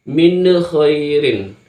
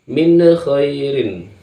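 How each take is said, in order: The two takes are said the same way.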